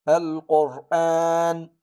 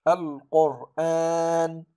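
The two takes are said the same way.

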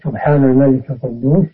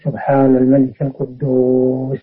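First: The phrase is said at a normal, even length. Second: The phrase is drawn out with lengthened sounds.

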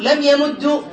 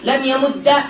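First: The verb ends with a short u vowel. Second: The verb ends with a short a vowel. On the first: It matches the vowel on the first consonant. "من ضم" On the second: It makes the word lighter to say. "من فتح"

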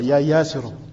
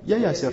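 First: The word ends with the full '-un' syllable. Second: The word ends without the final '-un' syllable. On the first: This is the full underlying form of the word. "Mais normalement, c'est comme ça" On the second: This is the form used when stopping on the word. "dès qu'ils s'arrêtent, ils ne prononcent pas la dernière moyenne"

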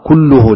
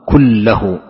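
First: The vowel after the doubled L is 'u'. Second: The vowel after the doubled L is 'a'. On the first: The word is the subject of a new clause. "وفي قراءة متواترة بالرفع" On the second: The word is an emphasis of the preceding noun. "بنصب اللام تأكيد"

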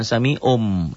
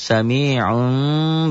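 First: The final sound is a plain clear M. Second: The final sound is a faint nasalized M. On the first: The speaker calls it wrong. "Bukan sami'um" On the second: The speaker calls it right. "Ada samar sedikit"

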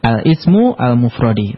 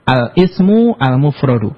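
First: The last word ends with an 'i' vowel. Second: The last word ends with a 'u' vowel. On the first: The phrase is read as a possessive construction. The speaker calls it wrong. "Maka enggak boleh dibaca al-ismu al-mufrodi" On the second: The phrase is read as noun plus adjective. The speaker calls it right. "Tapi yang benar"

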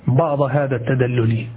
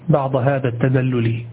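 The two takes are said the same way.

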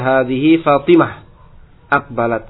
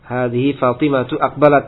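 First: It stops after the name, ending in -h. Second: The phrase runs on, the name ending in -tu.

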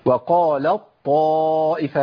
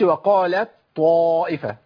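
First: The t merges fully into the following emphatic t. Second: The t is pronounced separately before the emphatic t. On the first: The speaker calls it right. "ده ادغام كامل" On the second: The speaker calls it wrong. "ما اقولش"

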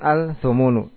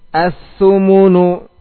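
First: The l is pronounced before the th sound. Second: The l merges into a doubled th sound. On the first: The speaker calls it wrong. "Tidak dibaca al-tanadu ataupun al-thumunu" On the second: The speaker calls it right. "hilang, dilebur"

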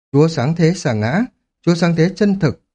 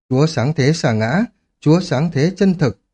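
Both takes have the same delivery.

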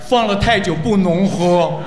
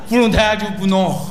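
First: The phrase is said slowly and deliberately. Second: The phrase is said at normal speed.

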